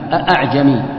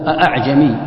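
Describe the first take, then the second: Both takes have the same delivery.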